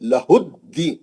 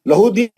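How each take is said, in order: First: The d sound is held and doubled. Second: The d sound is short and single. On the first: The speaker calls it right. "तजदीद है दाल पे" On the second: The speaker calls it wrong. "लहूदीन नहीं हो"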